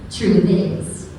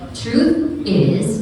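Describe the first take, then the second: First: The two words are linked into one sound. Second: The two words are said apart, not linked. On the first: The speaker calls it right. "you may connect the sound altogether" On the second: The speaker calls it wrong. "Instead of saying truth is"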